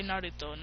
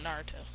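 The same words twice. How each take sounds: First: "Naruto" said the speaker's way, with a lightly tapped R; own pronunciation of Naruto. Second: "Naruto" with an American R, dropped lower and softer; rejected pronunciation of Naruto. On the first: Correcting listeners on the name, "Naruto" with tapped R. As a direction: say "Naruto" with a quick Japanese-style R. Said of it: "I say Naruto, not Naruto". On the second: Showing how not to say it, "Naruto" with American R. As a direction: say "Naruto" as NAR-uh-toe, dismissively. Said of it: "not Naruto". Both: Shown as a demonstration.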